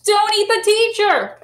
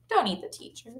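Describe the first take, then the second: First: Excited title announcement. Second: Soft, quick repeat; quiet aside. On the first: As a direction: announce the title with big, high-pitched drama. Announcing the book title to children. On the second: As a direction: drop to a soft, offhand aside. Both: Shown as a demonstration.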